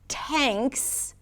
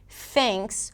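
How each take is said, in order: First: The word starts with a stopped T sound. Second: The word starts with a flowing TH sound. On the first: The speaker calls it wrong. "tanks with a T" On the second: The speaker calls it right. "thanks with a T H"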